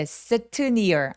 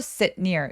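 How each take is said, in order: First: The t of sit is fully released. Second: The t of sit is held, not released. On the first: The speaker calls it wrong. "sit near 아니고" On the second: The speaker calls it right. "시옷 받침 혹은 디귿 받침처럼"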